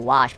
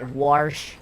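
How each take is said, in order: First: The vowel has no R sound after it. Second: The vowel is followed by an R sound. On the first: This is the usual way to say it. "In English, we would say wash" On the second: This is how one particular person says it. "he puts an R in there. It's like warsh"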